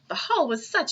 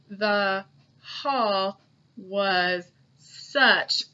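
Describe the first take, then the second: First: It is read quickly with a smooth rhythm. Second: It is read slowly, word by word, flat. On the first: The speaker calls it right. "that's a lot easier to understand, and it goes a lot quicker" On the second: The speaker calls it wrong. "that's not how we talk, ... so slowly and with that kind of robot voice"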